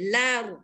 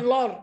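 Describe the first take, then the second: First: The lam is said light and thin. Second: The lam is said heavy and thick. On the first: The speaker calls it right. "Lam tu tidak tebal" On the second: The speaker calls it wrong. "lor tak betul"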